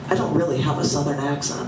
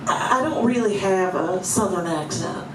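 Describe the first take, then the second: First: It is spoken in a neutral, unaccented voice. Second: It is spoken with a Southern American accent.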